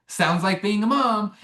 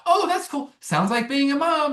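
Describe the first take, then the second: First: A hint of a distracted mom, slow; lightly voicing his busy mom; mom's voice. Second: High, breezy, offhand mom; busy mom voice. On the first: Aunt character brushing off the lead's fear, lightly voiced mom. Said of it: "in my mom's way". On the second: Retold or imitated. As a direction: toss it off brightly while rushing out. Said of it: "she's just kinda like".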